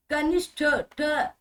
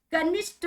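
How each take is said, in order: First: कनिष्ठ with a breathy ठ, then ठ alone; aspirated final ठ. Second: कनिष्ठ ending in a plain, unaspirated ट; unaspirated final ट. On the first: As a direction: finish कनिष्ठ on an aspirated ठ and repeat that sound. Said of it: "कनिष्ठ नहीं". (कनिष्ठ, फिर अलग से महाप्राण ठ) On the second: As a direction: say कनिष्ठ with no breath on the last consonant. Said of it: "नहीं". (कनिष्ठ के अंत में बिना प्राण का ट) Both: Shown as a demonstration.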